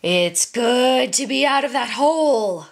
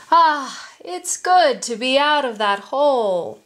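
First: Menacing growled animal voice; growling tiger. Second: Satisfied "ah", pitched higher; relieved. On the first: A narrator's reading. Tiger gloats over the pinned merchant, growling. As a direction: growl it with predatory relish. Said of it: "growled the tiger". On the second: Acted. Tiger just climbed out of the pit, relieved. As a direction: relish the freedom with a contented lift. Freed tiger stretches and smiles.

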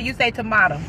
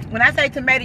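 First: Tomato with a broad A, tuh-MAH-toe; tomato said the other way. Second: Tomato with a long A, tuh-MAY-toe; tomato said two ways. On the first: Playing the tomato word game with viewers, tuh-MAH-toe. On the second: Playing the tomato word game with viewers, tuh-MAY-toe. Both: Shown as a demonstration. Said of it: "When I say tomato, you say tomato".

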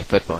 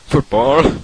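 First: Said in the usual way. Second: Football with a rising, higher, louder British lilt; mock British Football. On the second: Shown as a demonstration. Podcaster jokingly says Football the British way. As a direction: say Football like a Brit would, rising at the end. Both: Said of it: "as I say, football here".

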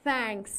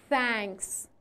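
First: "thanks" said with a plain t-like sound instead of th; the wrong "thanks", no tongue between teeth. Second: "Thanks" with the tongue between the teeth; a soft th at the start of "Thanks"; correct th. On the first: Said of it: "Thanks نگو". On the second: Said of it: "زبون میاد بین دندونا". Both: Shown as a demonstration.

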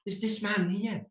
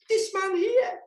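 First: Said in the usual way. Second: This man here leapt up high and louder, with a changed voice; sudden high emphatic repeat. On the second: Shown as a demonstration. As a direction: repeat This man here much higher for comic effect.

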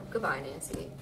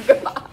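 First: Said in the usual way. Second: Put-on high, loud, laughing valley girl. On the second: Shown as a demonstration. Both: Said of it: "I sound like a valley girl".

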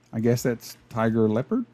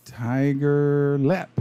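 First: Said in the usual way. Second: "lep" dit court, sans le "ard"; clipped "lep". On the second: Shown as a demonstration. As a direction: say "tiger lep", cutting leopard short.

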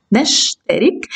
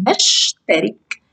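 First: Said in the usual way. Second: نشترك read slowly with the نش syllable held. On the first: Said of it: "يبقى هنا نش". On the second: Shown as a demonstration. Teacher isolating the sukun syllable, slowly. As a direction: slowly break نشترك into parts. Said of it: "آخد الحرف الساكن والحرف الذي قبله".

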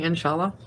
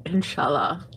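First: Said in the usual way. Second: Breathy seductive whisper, low; sexy whisper. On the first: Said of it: "I keep saying". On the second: Retold or imitated. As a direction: whisper it like a sweet nothing. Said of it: "in a sexy voice".

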